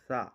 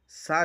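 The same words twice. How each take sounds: First: It starts with a soft th sound. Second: It starts with a plain hissing s sound. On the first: The speaker calls it right. "असल में ये है सा" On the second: The speaker calls it wrong. "सा की जगह सीन लगा देता है"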